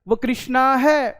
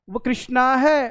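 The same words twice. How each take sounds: First: The consonant cluster is joined tightly together. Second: The same.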